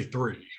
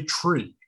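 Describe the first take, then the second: First: THREE begun with a soft TH instead of T; THREE for tree. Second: TREE begun with a hard T, no TH. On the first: Child mishearing the prompt for tree, THREE with TH. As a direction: put a TH at the front of THREE. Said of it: "why I mispronounce some words". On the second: Prompting a child in speech practice, TREE with a clear T. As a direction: say TREE with a plain T sound. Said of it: "'cause I wasn't hearing them properly". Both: Shown as a demonstration.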